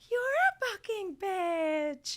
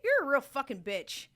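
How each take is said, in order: First: It is said in an imitated, put-on voice. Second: It is said in the speaker's normal voice.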